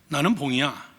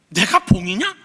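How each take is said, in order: First: The pitch falls at the end. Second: The pitch rises at the end.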